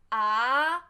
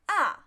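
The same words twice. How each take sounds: First: The pitch rises from low to high. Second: The pitch falls sharply from high to low. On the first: "second tone is rise tone" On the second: "Just directly fall"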